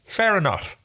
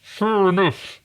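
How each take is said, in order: First: Talking round a finger in the mouth. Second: Choked, strangled and higher. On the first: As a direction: say it with a finger stuck in your mouth. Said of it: "I can stick a finger in my mouth". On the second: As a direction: squeeze it out like you're being strangled. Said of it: "sounds like the person who is about to be murdered". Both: Acted.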